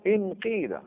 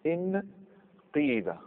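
First: انقيد as higher-pitched "inqiida"; pure kasra. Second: انقيد split slowly as "in... qiida"; kasra, drawn out. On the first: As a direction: say انقيد with "i" first and a long "ee". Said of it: "الاصل اخلاص الكسر". (انقيد بإخلاص الكسر) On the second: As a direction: say انقيد very slowly, pausing after "in". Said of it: "اذا نكسر همزه الوصل". (انقيد ببطء وبكسر الهمزة) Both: Shown as a demonstration.

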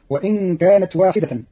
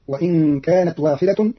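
First: Said in the usual way. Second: واحدة ending in "-tun", slowly; slow reading, u-ending on واحدة; nominative ending. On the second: Shown as a demonstration. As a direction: say واحدة as "wahidatun". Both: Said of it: "بالرفع، فتصير".

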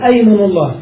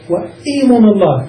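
First: أيمن with an open "a" on the first hamza; opening fatha. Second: إيمن with an "i" on the first hamza; opening kasra. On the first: Teacher showing the preferred hamza vowel, أيمن begun with "a". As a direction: start أيمن on "ay", not "ee". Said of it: "بهمزة مفتوحة". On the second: Teacher showing the allowed variant, إيمن begun with "i". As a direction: start إيمن on "ee", not "ay". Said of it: "بالكسر". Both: Shown as a demonstration.

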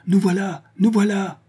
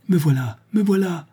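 First: Appeler bien plus aigu, en criant; appel haletant. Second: Appeler bien plus aigu, avec élan; la fille veut rassurer son père; cri étouffé. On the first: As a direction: crier pour rassurer de loin. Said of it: "proféra Honorine". (appel crié, bien plus haut) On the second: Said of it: "voulut-elle crier". (appel crié, voix bien plus haute) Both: A narrator's reading.

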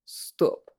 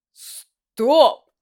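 First: Whispered. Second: Sharp, loud cry of stop; loud exclamation. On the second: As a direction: snap out of it with a shout. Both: Acted. Stunned, repeating to himself.

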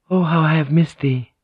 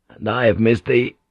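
First: Higher-pitched, tender woman's voice; a touch of aching tenderness; loving woman. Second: Understated male lover's answer; tender reply in the narrator's own register; loving man. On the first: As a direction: greet a secret lover with longing. Lovers embracing alone, woman's line. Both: Acted.

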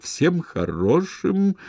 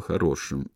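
First: "хорошим" drawn out slowly, pitch swooping high; slow, loaded stress on "хорошим"; pointed special intonation. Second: Said in the usual way. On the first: A narrator's reading. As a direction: stretch "хорошим" with heavy, meaningful emphasis. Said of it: "он подчеркнул особой интонацией слово". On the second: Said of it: "слово".

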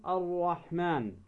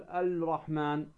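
First: الرحمن with no L, doubled rolled R; L merged into the R in الرحمن; lam assimilated. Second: الرحمن with an audible L before the R; L kept separate from the R in الرحمن; lam wrongly sounded. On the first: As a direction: say الرحمن as ar-rahman. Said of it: "اللام الشمسية ندغمها". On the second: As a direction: say الرحمن as al-rahman. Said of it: "ولا تقول". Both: Shown as a demonstration.

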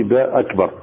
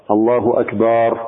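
First: Said in the usual way. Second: الله أكبر said slowly with the ba of أكبر drawn out; slow down and stretch the باء in الله أكبر; lengthened ba. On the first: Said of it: "ألا يمد المصلي باء أكبر". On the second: Shown as a demonstration. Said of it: "ما يقولش أكبر". (الله أكبر ببطء مع مد الباء)

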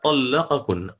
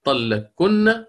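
First: طلقكن with the qaf sounded before the kaf; izhar pronunciation. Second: Slow, higher طلقكن with the qaf merged into the kaf; idgham pronunciation. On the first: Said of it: "فيها وجهان". (طلقكن بإظهار القاف) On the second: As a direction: stretch out طلقكن with the qaf assimilated. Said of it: "هكذا". (طلقكن بالإدغام ببطء) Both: Shown as a demonstration.

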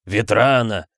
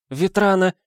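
First: Father's booming, emotional bass; tearful bass. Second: High woman's shriek; mother's high-pitched cry. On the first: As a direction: boom the name, choked with tears. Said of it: "всхлипнув, пробасил Пётр Михаил Саулович". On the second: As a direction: squeal the name out high. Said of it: "взвизгнула Герда Эриковна с новой силой". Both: A narrator's reading.

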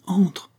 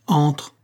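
First: Sharp higher one-word order; a curt order to enter the door; commanding. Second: Brief clipped command; a short hard order, no warmth; detective ordering his traitor lieutenant inside; curt tone. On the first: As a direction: snap it out as a command. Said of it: "Et il commanda". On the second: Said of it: "d'un ton bref". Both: A narrator's reading.

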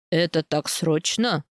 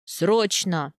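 First: Slow, low, mildly surprised question; low-pitched, unhurried puzzlement. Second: Emphatic answer with falling tone; short, definite reply; firm confirmation. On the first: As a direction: ask with restrained surprise, taking your time. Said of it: "удивлённо спрашивает он". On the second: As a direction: confirm it decisively, with a nod. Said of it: "кивает Герхард". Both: A narrator's reading.

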